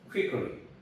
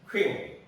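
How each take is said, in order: First: The word is said slowly. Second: The word is said quickly. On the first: "천천히 발음은" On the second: "빨리 발음하다 보면은"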